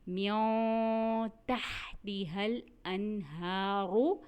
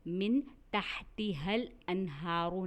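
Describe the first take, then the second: First: The n sound is hidden in nasalization. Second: The n sound is pronounced clearly. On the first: The speaker calls it right. "इख्फ़ा होता है" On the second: The speaker calls it wrong. "नहीं पढ़ा"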